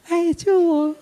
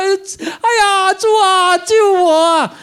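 First: It is said softly and coyly. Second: It is shouted loudly and urgently.

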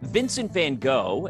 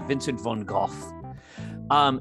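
First: The name is said with an American pronunciation. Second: The name is said closer to the Dutch pronunciation. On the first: "that is how Americans pronounce his name" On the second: "It's closer to Vincent van Gogh"

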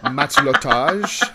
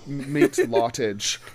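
First: It is said as one French-sounding word. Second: It sounds like the English words 'mate' and 'lot'. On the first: The speaker calls it right. "it's probably closer to matelotage" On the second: The speaker calls it wrong. "that sounds very bad"

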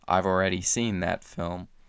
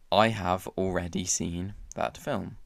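First: It is said in an American accent. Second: It is said in a British accent. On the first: "with my American accent" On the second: "In British English, we would say"

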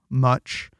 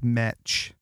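First: The vowel is the usual 'uh' sound. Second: The vowel sounds like 'eh', Utah style.

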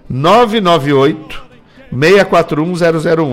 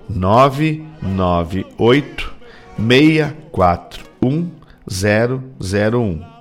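First: The number is said at normal speed. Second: The number is said very slowly.

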